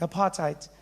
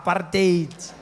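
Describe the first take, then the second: First: The word is said softly and pleasantly. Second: The word is said harshly and forcefully.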